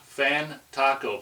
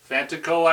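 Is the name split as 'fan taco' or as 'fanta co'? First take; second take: fan taco; fanta co. First: It is split as 'fan' plus 'taco'. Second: It is split as 'fanta' plus 'co'. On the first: It is a playful, joking version of the name. The speaker calls it wrong. "I kind of jokingly said from Fan Taco" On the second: It is probably the name's intended pronunciation. The speaker calls it right. "he probably pronounced it Fantaco, like Fantasy Co"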